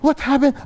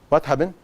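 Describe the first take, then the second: First: It is said in a sweet, soothing tone. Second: It is said in a firm, cold tone. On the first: The crying gets attention and is rewarded. The speaker calls it wrong. "you try to be Missus Nice" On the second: No attention is given to the crying. The speaker calls it right. "you go with this tone of voice"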